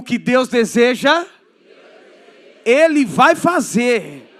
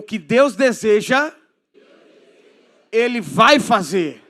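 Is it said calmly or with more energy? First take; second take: more energy; calmly. First: It is said with more energy and fervor. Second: It is said in a calmer, plainer way.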